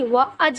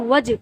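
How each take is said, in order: First: The wa and aj sounds are split apart. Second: The sounds run together as one syllable, waj. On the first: The speaker calls it wrong. "व अज नहीं है" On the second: The speaker calls it right. "ये है वज"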